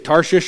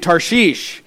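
First: The name is said in a plain English way. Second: The name is said in a careful, strained way. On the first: "I'm just going to say Tarshish" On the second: "The correct pronunciation is probably Tarshish"

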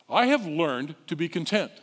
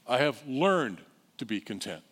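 First: It is said at a quick pace. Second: It is said slowly and deliberately.

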